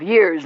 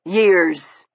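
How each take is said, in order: First: Said in the usual way. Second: Years leaned on, weighted and falling; Years said with a meaningful push; stress on Years. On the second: A narrator's reading. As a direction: give Years a pointed, heavy stress. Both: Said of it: "stressing the word".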